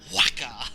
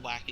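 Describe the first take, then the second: First: The name is said with strong, heavy emphasis. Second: The name is said plainly, without extra emphasis. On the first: "you just stress. You'd be like Waka" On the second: "instead of normal Waka"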